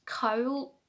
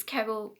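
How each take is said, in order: First: "cowl" as one syllable, near "kohl"; others' "cowl". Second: "cowl" said her Scottish way, close to "kerrol". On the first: Knitter showing how others say "cowl", attempted English pronunciation. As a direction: attempt "cowl" the non-Scottish way, one rounded vowel. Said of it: "a lot of people would pronounce". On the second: Knitter showing her own Scottish way of saying "cowl". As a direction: stretch "cowl" toward two syllables, Scottish style. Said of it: "I'm sorry I say that funny". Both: Shown as a demonstration.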